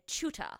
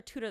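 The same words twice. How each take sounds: First: "tutor" as British "CHOO-tuh"; British-style "tutor", opening like "chew"; British pronunciation. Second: Said in the usual way. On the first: Shown as a demonstration. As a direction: say "tutor" with a ch start and no final r. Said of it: "a lot of British words". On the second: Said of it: "they don't call her a tutor".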